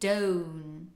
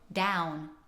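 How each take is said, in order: First: The vowel glides from a schwa to 'oo'. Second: The vowel is an open modern 'ow' sound. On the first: "using that schwa sound in the beginning, uh, and then going to oo" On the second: "In modern English, we have the ow sound, kind of like you stubbed your toe"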